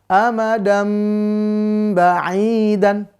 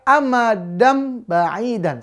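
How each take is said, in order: First: The m is held with a nasal hum. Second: The m is short with no nasal hum. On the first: The speaker calls it right. "Dibarengi dengan dengung" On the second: The speaker calls it wrong. "Jangan sampai dibaca amadam ba'idan. Salah"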